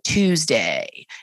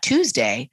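First: The voice drops low and creaks at the end. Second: The voice stays clear and smooth to the end. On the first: "but Tuesday" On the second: "So it's not Tuesday"

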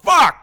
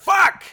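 First: The word sounds irritated and angry. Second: The word sounds pained, like the speaker is hurt. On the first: Something is bothering the speaker. "You can say it like something's pissing you off" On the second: The speaker is in pain. "you can say it like you're hurt"

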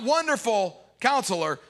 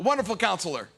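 First: A pause falls between Wonderful and Counselor. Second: No pause between Wonderful and Counselor.

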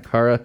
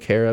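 First: The first syllable sounds like the word car. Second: The first syllable does not sound like car. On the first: This is the speaker's own name, from Italian. "if you look at it phonetically, C-A-R, car" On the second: This is the more familiar name that people assume. "a lot of people might know a Kara"

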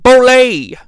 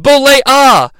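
First: The ending sounds like 'olé'. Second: The ending does not sound like 'olé'. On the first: The speaker calls it wrong. "not Bollea" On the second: The speaker calls it right. "his name is Bollea"

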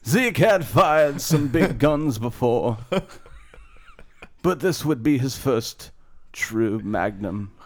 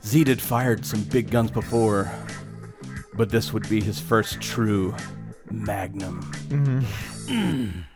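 First: It is read in a put-on character voice. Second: It is read in a natural speaking voice.

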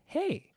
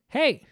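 First: It is said nicely, rising at the end. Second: It is shouted in an angry way.

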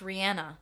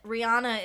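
First: The middle syllable sounds like 'ann'. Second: The middle syllable sounds like 'ah'. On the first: This is how the singer says her own name. The speaker calls it right. "[name] is pronounced [name]" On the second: This is how most people say the name. The speaker calls it wrong. "And we're all saying it wrong"

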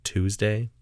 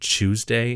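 First: It is said with an American pronunciation. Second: It is said with a British pronunciation. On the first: "instead of Tuesday" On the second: "British people say Tuesday"

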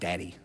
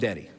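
First: The first vowel sounds like the vowel in 'dad'. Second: The first vowel sounds like the vowel in 'did'. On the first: This is not the speaker's own name for the father. The speaker calls it wrong. "not Daddy" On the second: This is the speaker's own name for the father. The speaker calls it right. "I call him Daddy, ... you'd probably spell it like D-I-D-D-I"

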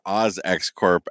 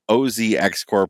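First: The name is said the Australian way. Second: The name is said the American way.

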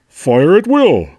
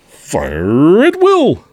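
First: It is a toned-down Tony the Tiger voice. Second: It is a silly Tony the Tiger voice.

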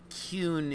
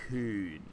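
First: The pitch is not low and falling. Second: The pitch is low and falling. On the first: The speaker calls it wrong. "it's not Kuhn" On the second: The speaker calls it right. "It's very low, like falling"

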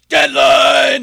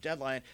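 First: It is said in an exaggerated put-on voice. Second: It is said in a plain, normal voice. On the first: "I'll do the rip chords voice" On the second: "instead of just going deadline"

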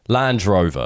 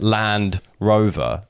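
First: The d runs into the second word, drover. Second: The d stays with the first word, Land. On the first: "They do Land Rover" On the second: "no one pronounces it Land Rover"

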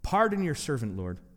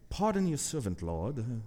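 First: It is read in the speaker's plain accent. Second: It is read in a British accent.

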